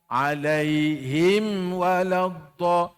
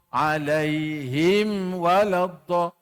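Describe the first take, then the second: No difference in how they are said.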